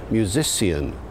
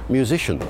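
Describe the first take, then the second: First: Musician said mew-zi-see-un, four syllables; musician with s-ee-un ending; early Shakespearean pronunciation. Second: Musician said mew-zish-un, three syllables; musician with short shun ending; modern pronunciation. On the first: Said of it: "people were pronouncing the word musician as". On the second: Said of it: "later still, it became". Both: Shown as a demonstration.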